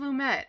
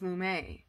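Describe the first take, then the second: First: The final T sound is pronounced. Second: The final T sound is silent. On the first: This is how others say the name. "they say Sidney Lumet" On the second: This is how the speaker assumed the name was said. "I thought it was Lumet"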